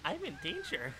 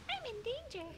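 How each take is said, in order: First: Raised pitch, playful quote; mock character voice. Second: Very high little voice; squeaky echo. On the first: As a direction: say it as a higher cartoon voice. Quoting a cartoon line. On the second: Pretend. Echoing the quote much higher.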